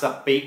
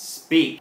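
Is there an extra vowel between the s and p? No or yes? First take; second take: yes; no. First: A short vowel is inserted between s and p. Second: The s and p are blended with no vowel. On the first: The speaker calls it wrong. "ไม่ได้ออกเสียงว่า, speak นะครับเพราะว่าไม่มีสระอะระหว่างตัว s กับตัว p" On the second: The speaker calls it right. "sp ก็เป็นเสียงควบกล้ำของภาษาอังกฤษที่ต้องออกเสียงพร้อมกัน"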